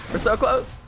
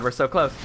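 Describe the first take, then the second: First: High, strained We're so close; high whine. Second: Said in the usual way. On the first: Real, not acted. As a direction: squeak out We're so close. in tension.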